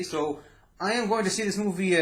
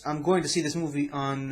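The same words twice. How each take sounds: First: Am stretched and lifted in emphasis; stress on am. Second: Said in the usual way. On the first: Shown as a demonstration. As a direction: lean hard on am.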